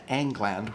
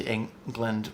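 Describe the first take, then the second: First: "Angland" with an open A as in "Angles"; playful old-style pronunciation. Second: Said in the usual way. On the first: Shown as a demonstration. Linguist linking England to the Angles, playful "Angland" pronunciation. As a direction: say "Angland" with two full "a" vowels, ANG-gland. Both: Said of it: "spoken by the Angles".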